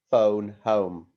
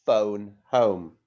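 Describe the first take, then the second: First: Phone home, louder, stress on phone, falling; modelled phrase. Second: Phone home, louder, with a falling finish; modelled phrase. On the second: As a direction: say Phone home clearly for the class to repeat. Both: Shown as a demonstration. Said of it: "Can you say".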